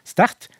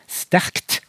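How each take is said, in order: First: "sterkt" said as "stert", r and t unmerged; k dropped. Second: "sterkt" with r, k and t all pronounced; all consonants sounded. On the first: Linguist shows her own dialect, "sterkt" with the k dropped. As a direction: leave the k out of "sterkt". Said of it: "Så den kan forsvinne". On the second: Linguist inflects the example, "sterkt" with all three consonants sounded. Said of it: "Da blir det tre konsonanter". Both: Shown as a demonstration.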